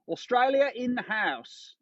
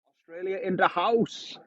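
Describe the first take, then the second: First: It is said in a put-on Australian accent. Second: It is said in his own British accent.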